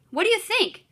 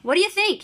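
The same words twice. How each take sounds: First: Higher, scornful impatient question; impatient and bossy. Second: Impatient. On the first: Shown as a demonstration. Teacher voicing Paul mocking his brother, impatient and bossy. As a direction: make the kid feel stupid. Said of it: "making my voice sound a little impatient and bossy". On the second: Acted. Older brother bossing his sibling.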